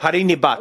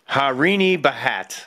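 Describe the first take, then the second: First: The surname is said as one syllable. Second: The surname has an added vowel, two syllables. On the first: The speaker calls it right. "It's Harini Bhat" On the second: The speaker calls it wrong. "Or if you're from Denver"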